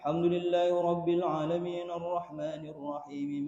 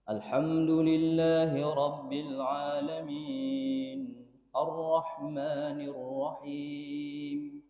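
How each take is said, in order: First: It is recited quickly, all in one breath. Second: It is recited at a moderate, measured pace. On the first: The speaker calls it wrong. "mewasalkan semua ... satu nafas" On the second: The speaker calls it right. "Seperti itu, Pak. Mentartilkannya"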